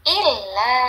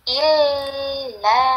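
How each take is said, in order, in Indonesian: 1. Vokal pertama dibaca pendek. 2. Vokal pertama dibaca panjang. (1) "harus satu harokat atau satu ketukan" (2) "Bukan illa"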